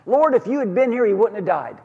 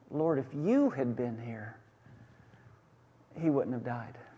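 First: The line is said in an accusing, reproachful tone. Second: The line is said in a respectful, trusting tone. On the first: The speaker blames the listener for letting them down. "both sisters were accusing Jesus of a failure" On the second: The speaker honors the listener's power to have helped. "these sisters were actually honoring Jesus"

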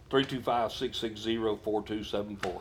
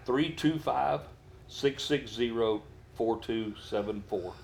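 First: The number is said at normal speed. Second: The number is said slowly.

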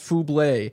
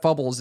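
First: The name ends in a French 'blé' sound. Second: The name ends in an English 'bles' sound. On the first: The speaker calls it right. "It's pronounced [name]. It's French, yeah, like [name]" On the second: The speaker calls it wrong. "not Fubbles"

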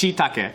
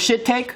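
First: The first syllable sounds like 'shee'. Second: The first syllable sounds like 'shit'. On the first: The speaker calls it right. "it's shiitake. That's why there's double eyes" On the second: The speaker calls it wrong. "you thought it was shit-take?"

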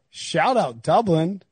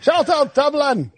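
First: It is said in his normal accent. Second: It is said in an Irish accent.

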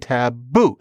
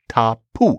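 First: The middle consonant is a b sound. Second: The middle consonant is a p sound. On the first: This is the form used in English. "but we say taboo. The p became a b" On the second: This is the original Polynesian form. "originally tapu"

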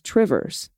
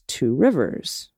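First: The two words are squeezed into one word. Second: Both words are said fully and separately. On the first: "the local pronunciation is Trivers" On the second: "How would you pronounce Two Rivers?"

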